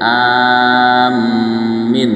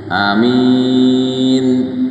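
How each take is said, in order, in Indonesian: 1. Vokal pertama panjang, m digandakan, vokal kedua pendek. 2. Vokal pertama pendek, yang kedua panjang. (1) "A-nya panjang, mimnya ditasdid, I-nya pendek" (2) "A-nya pendek, minnya panjang"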